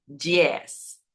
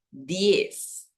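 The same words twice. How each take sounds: First: "diez" said "dj-iez" with an affricate; the wrong Brazilian-style "diez"; Portuguese dj sound. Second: "diez" with a plain hard D, said slowly; Spanish clean d. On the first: Teacher showing the "dj" sound to avoid. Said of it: "no diez". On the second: Teacher contrasting the correct Spanish "diez". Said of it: "sino diez". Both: Shown as a demonstration.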